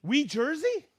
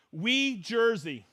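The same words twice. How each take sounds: First: Wee, Jersey? with a rising question at the end; puzzled question. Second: Wee, Jersey read slowly, as written; careful first reading of Wee, Jersey; slow first try. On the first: Host puzzling over a viewer's place name, doubtful rise. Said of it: "second take, puzzled". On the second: Host reading a viewer's place, slowly at first. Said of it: "reading a viewer's location". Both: Real, not acted.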